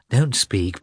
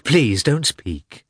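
First: Said in the usual way. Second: Slow, drawn-out plea; a mild hurt plea, stretched out; slow pleading. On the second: Acted. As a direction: beg her to stop, slowly. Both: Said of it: "with a shaking voice".

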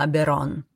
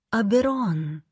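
First: Father's address. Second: Higher, gentle female voice; soft, kind woman. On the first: Father warning his son Аберон, understated gravity. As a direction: say the name as a grave father would, understated. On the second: Goddess greeting the man at the vault, soft and kind. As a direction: say the name softly and kindly, pitched up. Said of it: "мягкий, добрый голос". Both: A narrator's reading.

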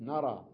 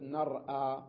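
First: "نرى" with no glottal stop, long final aa; hamza dropped. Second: "نرأى" with a glottal stop after the r; original form with hamza. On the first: Teacher giving the spoken form, "نرى" without hamza. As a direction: run r straight into the vowel in "نرى". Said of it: "قلت نرى". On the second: Teacher showing what is not said, hamza kept in "نرأى". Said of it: "ما قلت نرأى". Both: Shown as a demonstration.

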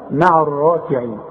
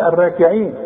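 First: "الراكعين" with full, thick "raa"; heavy ra. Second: "الراكعين" with a light, thinned ra; wrong thin ra. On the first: Teacher recites verse for pupil, heavy ra. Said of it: "الراء اذا جات لك في القرآن". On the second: Teacher warns pupil against this reading, thin ra. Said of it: "اوعى تقول". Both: Shown as a demonstration.

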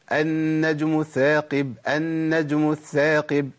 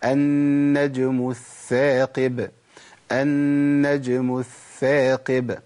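First: "الثاقب" said with س, like ساقب; wrong ث as س. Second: "الثاقب" recited slowly with a soft breathy ث; slow recitation, let the ث of "الثاقب" hiss softly between the teeth; correct soft ث. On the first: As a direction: swap the ث in "الثاقب" for a plain س, the common error. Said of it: "كتير من الناس بيقول النجم الثاقب". (نطق خاطئ: "الثاقب" بالسين) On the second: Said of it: "رخاوة في الثاء الأولى". (نطق صحيح بثاء رخوة في "الثاقب") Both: Shown as a demonstration.

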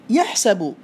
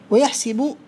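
First: يحسب with a short a on the س, "yahsabu"; with fatha. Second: ويحسب with a short i on the س, "wa-yahsibu"; with kasra. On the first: Teacher showing the regular form, fatha on س. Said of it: "بالفتح المقيس". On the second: Teacher showing the irregular form, kasra on س. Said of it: "بالكسر". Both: Shown as a demonstration.

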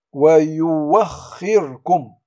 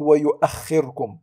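First: "ويوخركم" with a drawn-out w in place of the hamza; إبدال الهمزة واوا. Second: Said in the usual way. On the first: Shown as a demonstration. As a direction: recite "ويوخركم" slowly, gliding on w without a glottal stop. (نطق "ويوخركم" بواو ممدودة دون همز) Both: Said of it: "ولا نقول ويؤخركم".

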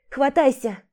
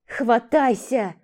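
First: Urgent call down; shouting. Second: Slow, drawn-out shout. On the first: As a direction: call down the pit, grab on. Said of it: "крикнула". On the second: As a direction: drag out the command. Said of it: "закричала она". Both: Acted.

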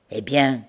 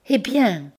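First: Said in the usual way. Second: High, breathless anxious eh bien; anxious question. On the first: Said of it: "demanda Bertrande". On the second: Acted. Bertrande, anguished, begs Pierre to go on, high and tense. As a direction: pale with dread, push for the answer. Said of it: "pâle et haletante d'angoisse".

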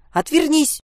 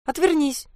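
First: Loud, high cry breaking into a squeak; helpless squeak. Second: Short high-pitched yap of a command; half bark, half yap. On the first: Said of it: "срываясь на писк от беспомощности". (срываясь на беспомощный писк) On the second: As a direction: yelp it out like a little dog barking. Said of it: "Не то рявкнула, не то тявкнула Анька". (то ли рявкнуть, то ли тявкнуть) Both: A narrator's reading.

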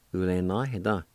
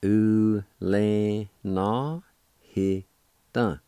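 First: Said in the usual way. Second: "U le na he dun" spoken very slowly, syllable by syllable; "U le na he dun" at a crawl with separated syllables. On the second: Shown as a demonstration. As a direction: drag out "U le na he dun" for learners. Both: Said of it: "It's pronounced like this".

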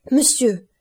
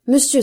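First: Higher, louder desperate call; anguished cry. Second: Higher and louder, peaking the plea; louder anguished cry. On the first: Franz crying out to Noirtier, anguished and loud. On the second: Franz to Noirtier, repeating his plea louder. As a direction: push the repeated word harder. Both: A narrator's reading. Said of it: "s'écria-t-il".

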